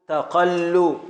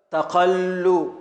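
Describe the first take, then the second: First: Said in the usual way. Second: تقل stretched slowly, each syllable drawn out; slow scansion. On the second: Shown as a demonstration. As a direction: spell out the beat of تقل slowly. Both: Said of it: "حركة، حركة، سكون".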